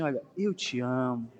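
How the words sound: It is said warmly and tenderly.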